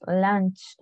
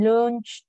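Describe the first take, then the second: First: "lunch" with an open vowel, like "lanch"; correct English vowel. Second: "lunch" with a Spanish u, like "loonch"; mispronounced "lunch". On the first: Teacher correcting the class, "lunch" pronounced "lanch". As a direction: say "lunch" as "lanch", not "loonch". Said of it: "es lunch". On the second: Teacher telling students what not to say, "lunch" said as "loonch". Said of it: "No me digan lunch". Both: Shown as a demonstration.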